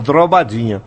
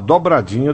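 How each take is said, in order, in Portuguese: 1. O som do r vem logo depois do primeiro d. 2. O som do r vem logo depois do b. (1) "Falar errado é tão complicado" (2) "É mais fácil a gente tentar falar uma dobradinha"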